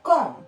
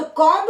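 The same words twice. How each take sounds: First: कॉम with a silent b, ending on m; correct pronunciation. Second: कॉम्ब with the final b sounded; wrong pronunciation. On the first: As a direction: say कॉम with no b at the end. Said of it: "तो कॉम्ब नहीं होता". (सही उच्चारण, बी silent) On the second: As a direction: say कॉम्ब ending on a clear b. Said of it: "नहीं होता". (गलत उच्चारण, अंत में बी बोलकर) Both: Shown as a demonstration.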